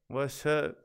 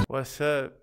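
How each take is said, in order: The two takes are said the same way.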